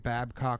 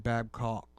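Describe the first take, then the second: First: The vowels are said unrounded. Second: The vowels are said rounded. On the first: This is the speaker's own way of saying it. "I say Babcock" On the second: This is how locals up here say it. "they say Babcock"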